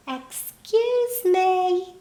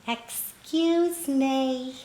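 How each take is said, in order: First: Put-on much higher, slow little-old-woman call. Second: Put-on slow, small old woman's voice; little voice. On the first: Little old woman calls again to the waitress, much higher and slow. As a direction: lift it up high and slow to be noticed. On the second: Little old woman tries to get the crying waitress's attention, slow and small. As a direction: call gently and slowly for attention. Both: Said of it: "I heard this little voice".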